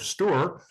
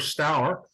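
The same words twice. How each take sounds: First: The river name is said the Essex way. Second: The river name is said a non-Essex way.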